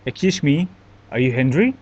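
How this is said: It is said in an angry tone. The speaker seems annoyed at the listener.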